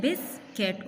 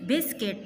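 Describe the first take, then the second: First: "biscuit" as bis, then cuit; split into syllables. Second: Said in the usual way. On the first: Shown as a demonstration. Teacher showing students two syllables, "biscuit" said in two parts. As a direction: break "biscuit" in the middle, two beats. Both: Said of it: "इसमें टू syllables है".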